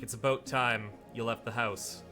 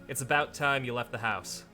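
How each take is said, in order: First: It is spoken in a Canadian accent. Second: It is spoken in an American accent. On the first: "some people in Ontario will be like" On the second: "Whereas in the American dialect"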